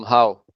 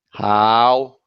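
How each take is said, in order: First: Said in the usual way. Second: HOW drawn out long with a rising glide; long vowel. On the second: Shown as a demonstration. Showing the long vowels, HOW held long and rising. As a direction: stretch the vowel of HOW upward. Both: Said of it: "it's different from how".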